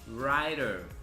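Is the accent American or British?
American. It is said in an American accent. "Se a gente for para o lado mais americano"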